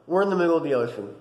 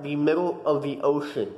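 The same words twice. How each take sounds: First: Said in the usual way. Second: "middle of the ocean" slowed and spelled out; measured, deliberate "middle of the ocean"; emphatic repeat. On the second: Real, not acted.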